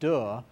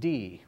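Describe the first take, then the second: First: The vowel is a short 'uh' sound. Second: The vowel is a long 'ee' sound. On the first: This is how it is spoken. "you're used to pronouncing it de" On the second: This is how it is sung. "when you sing it, you pronounce it D"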